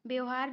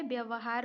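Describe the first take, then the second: First: व्यवहार squeezed into two syllables, byohaar; wrong pronunciation. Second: व्यवहार with its middle "va" sounded, byavahaar; correct pronunciation. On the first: Teacher rejecting a misspelling, व्यवहार said as "byohaar". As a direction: run व्यवहार together as "byohaar". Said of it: "नहीं होता है". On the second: Teacher giving the correct spelling, व्यवहार as "byavahaar". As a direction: sound every syllable of व्यवहार, "bya-va-haar". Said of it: "होता है". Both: Shown as a demonstration.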